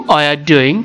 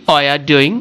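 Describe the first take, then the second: No difference in how they are said.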